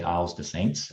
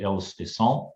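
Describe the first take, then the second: First: The name is said with an American pronunciation. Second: The name is said with a French pronunciation. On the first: "I might say Isles de Saints as, a, as an American" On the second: "I try to do it in, in French"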